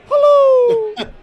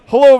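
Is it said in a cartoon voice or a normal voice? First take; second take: cartoon voice; normal voice. First: It is said in a put-on cartoon voice. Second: It is said in a normal speaking voice. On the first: The speaker calls it right. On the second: The speaker calls it wrong.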